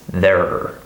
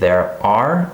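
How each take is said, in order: First: The second word is reduced into the first. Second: Both words are said fully and separately. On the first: The speaker calls it right. "it's there" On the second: The speaker calls it wrong. "this isn't pronounced there are"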